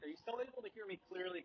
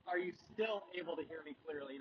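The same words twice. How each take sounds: First: Recorded in a car with the windows slightly open. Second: Recorded in a car with the windows fully down. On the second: "I'm going to put them all the way down"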